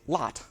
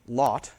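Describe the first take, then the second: First: The vowel is an open unrounded ah. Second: The vowel is said with rounded lips. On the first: This is how it is said in General American. "General American, they don't say lot, they say lot" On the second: This is how it is said in New England. "a rounding of the vowel um, in words like lot"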